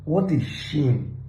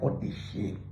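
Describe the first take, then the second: First: Said in the usual way. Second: Breathy whispered repeat, much softer; whispered aside. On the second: Real, not acted. Vlogger mutters scorn at nafdac in a whisper.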